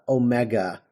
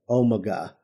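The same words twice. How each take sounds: First: It is said in an American accent. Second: It is said in a British accent. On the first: "I was pronouncing uh, Omega" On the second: "instead of Omega"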